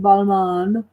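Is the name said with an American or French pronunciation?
French. The name is said with a French pronunciation. The speaker calls it right. "with the French pronunciation"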